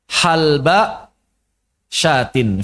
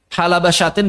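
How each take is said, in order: First: The l sound has no vowel after it. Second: A short a vowel follows the l sound. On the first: This form occurs in a small minority dialect. "wa yajuzu iskaniha ... fi lughah qalilah" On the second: This is the usual form. "bifathih lam, dengan lam fathah"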